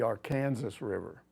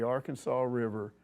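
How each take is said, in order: First: Arkansas ends sounding like 'Kansas'. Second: Arkansas ends with a 'saw' sound. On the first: This is how people in Kansas say it. The speaker calls it wrong. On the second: This is the usual local name. The speaker calls it right.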